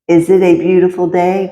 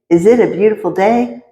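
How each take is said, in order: First: It is said slowly, timidly, in a sleepy voice. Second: It is said quickly, with rising excitement. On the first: "timidly ask with a sleep-strained voice" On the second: "gaining in tempo and excitement"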